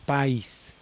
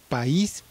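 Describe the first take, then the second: First: The a is stressed, joined with the i. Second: The i is stressed and separate from the a. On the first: "Si no se separara de la A, sería algo así como país" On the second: "la I eh, se separa de la A también"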